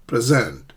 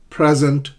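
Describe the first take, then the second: First: "present" as pri-ZENT, falling; second-syllable stress. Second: "Present" as PREZ-ent, loud; first-syllable stress. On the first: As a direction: land on SENT in "present". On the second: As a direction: hit PRE in "Present". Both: Shown as a demonstration. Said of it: "notice the shift in the stress".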